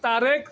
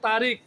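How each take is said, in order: First: The last vowel is an 'e' sound. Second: The last vowel is an 'i' sound. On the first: This is the standard regional way of saying it. "আমরা বলি তারেক" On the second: This is how people in Sylhet say it. "Sylhet বলে তারিক"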